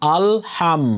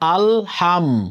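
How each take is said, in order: Both takes have the same delivery.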